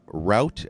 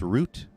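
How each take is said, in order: First: The vowel rhymes with out. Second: The vowel rhymes with boot.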